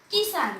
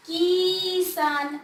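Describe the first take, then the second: First: Said in the usual way. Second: किसान very slow, with a long drawn-out ई; wrongly stretched vowel. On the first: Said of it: "मैं ऐसा तो नहीं पढ़ा ना". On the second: Shown as a demonstration. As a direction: drag out the first vowel of किसान. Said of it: "ऐसा नहीं पढ़ा मैंने".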